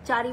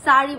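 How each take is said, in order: First: The word begins with a 'ch' sound. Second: The word begins with an 's' sound. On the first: The speaker calls it wrong. "চারি বলে না" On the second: The speaker calls it right. "সারি বলে"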